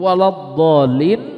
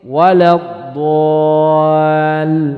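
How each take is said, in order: First: The long vowel keeps a heavy, full-mouthed quality. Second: The long vowel turns thin and light. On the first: The speaker calls it right. "doknya itu tidak boleh dirubah" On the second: The speaker calls it wrong. "Ini dirubah"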